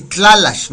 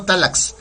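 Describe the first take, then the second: First: Tlalash said with a clear tl at the start and sh at the end; correct pronunciation. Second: Talax said with a plain t and an x sound, the mistaken way; wrong pronunciation. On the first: Teacher showing students the right way, tlalash said clearly. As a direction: say tlalash, tl-a-la-sh, carefully and a little louder. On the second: Teacher showing students the mistake, talax said in passing. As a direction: say talax as the error to avoid, dropping the l after the t. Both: Shown as a demonstration. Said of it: "Así, tlalash, no talax".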